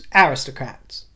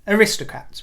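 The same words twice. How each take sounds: First: The stress is on the first syllable. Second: The stress is on a later syllable. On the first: This is the British way of saying it. "In the kingdom, it's aristocrats, with the emphasis on the first syllable" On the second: This is the American way of saying it. "But abroad, you say aristocrats"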